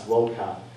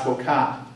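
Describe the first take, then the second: First: The stress is on the first syllable. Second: The stress is on the last syllable. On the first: The speaker calls it right. "Never accented on the last syllable" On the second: The speaker calls it wrong. "You would never say"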